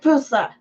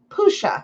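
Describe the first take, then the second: First: The middle consonant is a plain 's' sound. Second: The middle consonant is an 'sh' sound. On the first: The speaker calls it wrong. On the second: The speaker calls it right.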